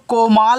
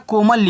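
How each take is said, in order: First: The second syllable has a long 'aa' vowel. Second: The second syllable has a short 'a' vowel. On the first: The speaker calls it wrong. "ऐसे आ की मात्रा करके यल से ला करूं, ये देखो कोमाल हो जाएगा" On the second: The speaker calls it right. "कोमल में मापे मात्रा नहीं होते"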